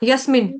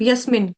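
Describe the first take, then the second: Both takes have the same delivery.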